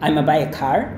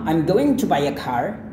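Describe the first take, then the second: First: Gonna is said without its g sound. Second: Going to is said in full. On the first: "dihilangkan bunyi G-nya"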